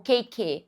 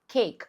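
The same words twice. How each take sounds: First: A vowel sound is added after the final k. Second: The word ends on the k, no vowel after. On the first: The speaker calls it wrong. "ou cake" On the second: The speaker calls it right. "você vai falar só cake. O E, ele não é emitido aqui"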